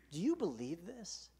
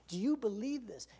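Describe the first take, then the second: First: Said in the usual way. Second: YOU pressed, higher and louder; pressing question. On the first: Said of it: "can I just ask you that". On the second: Shown as a demonstration. Preacher pressing the congregation, stressing you. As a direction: push the word you right at them. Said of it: "I'm asking, do you?".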